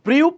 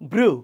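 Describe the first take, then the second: First: The vowel has a y glide, like 'bryoo'. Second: The vowel is a plain 'oo', like 'broo'. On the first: The speaker calls it wrong. "আমরা কিন্তু বলি না ... ব্রিউ" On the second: The speaker calls it right. "No it is ব্রু"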